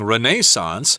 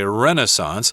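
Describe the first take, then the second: First: It is said the British way. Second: It is said the American way. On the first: "you will hear English people saying" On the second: "but Americans say"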